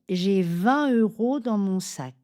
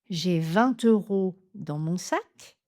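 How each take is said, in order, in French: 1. Aucun son T ne lie vingt à euros. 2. Un son T lie vingt à euros. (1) "la prononciation plus courante" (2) "faire une liaison"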